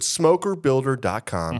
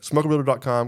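First: It is said slowly. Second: It is said fast.

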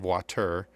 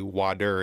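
First: It is said with a non-Midwestern pronunciation. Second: It is said with a Midwestern pronunciation. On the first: "instead of water" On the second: "we kind of do as Midwesterners. We say water"

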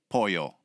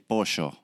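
First: The double L sounds like a 'y'. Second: The double L sounds like 'sh'. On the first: This is how most Latin Americans say it. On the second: This is how Argentinians say it.

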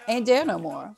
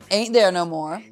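First: Most consonants are dropped. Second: The consonants are fully pronounced. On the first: The speaker calls it right. "you remove all the consonants" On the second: The speaker calls it wrong. "I think I wasn't even saying that correctly"

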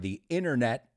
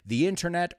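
First: The middle T sound is dropped. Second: The middle T sound is clearly pronounced.

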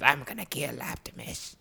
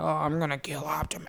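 First: It is said imitating Megatron's voice. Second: It is said in a plain, unlike-Megatron voice.

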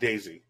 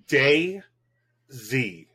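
First: The name is said fast, with parts run together. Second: The name is said slowly, with parts kept apart. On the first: The speaker calls it wrong. "not DayZ. So just so you know, I said it too fast" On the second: The speaker calls it right.

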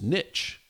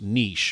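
First: The word is said in an English-like way. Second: The word is said in a French-like way.

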